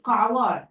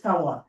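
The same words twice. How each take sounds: First: Kawar with Arabic Qaf and Ayn; native Arabic pronunciation. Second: Kawar with a plain English K; simplified pronunciation. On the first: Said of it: "how to spell the Qaf and Ayn". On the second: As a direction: say Kawar the easy way, no Arabic Ayn. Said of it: "So it's good to tell them". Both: Shown as a demonstration.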